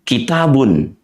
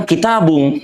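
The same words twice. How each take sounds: First: Kitabun ending cleanly in n; correct tanwin. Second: Kitabung ending in a nasal ng; student's version. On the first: Shown as a demonstration. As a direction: say Kitabun with a crisp final n. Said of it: "Kita masuk ke contoh kan". (Kitabun diakhiri bunyi n yang jelas) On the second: Retold or imitated. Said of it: "Dia bilang". (meniru murid: kitabung dengan akhiran ng)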